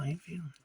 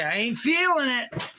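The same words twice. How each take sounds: First: Much softer, trailing off; quiet. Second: Higher, louder, emphatic. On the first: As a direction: say it under your breath, deflated. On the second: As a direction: sing it out like a catchphrase. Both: Real, not acted. Catchphrase repeated, then fading.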